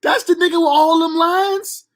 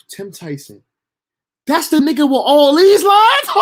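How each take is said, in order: First: High, slow, stretched-out incredulous question; drawn-out disbelief. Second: High, loud disbelieving yelp; shocked disbelief. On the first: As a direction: drag it out in disbelief. Repeats shocked question, drawn out. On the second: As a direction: squeak out the shock at all those lines. Shocked at the big role. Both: Retold or imitated.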